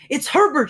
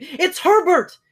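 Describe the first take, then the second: First: High, loud frantic scream. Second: Even higher, louder scream. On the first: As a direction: scream his name in hope. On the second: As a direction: scream it again, wilder. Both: A narrator's reading. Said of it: "she screamed".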